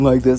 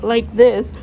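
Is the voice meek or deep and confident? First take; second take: deep and confident; meek. First: The voice is deeper and confident. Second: The voice is meek and shy. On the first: The character has grown confident. "her voice becomes deeper and more confident" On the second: The character is timid. "a meek, shy girl"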